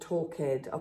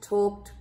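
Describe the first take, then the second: First: The ending is an extra syllable, talk-ed. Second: The ending is a plain t, one syllable. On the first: The speaker calls it wrong. "do not pronounce this like walked or talked. ... giving the word another syllable" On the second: The speaker calls it right. "It's almost like we take away the E and we add a T"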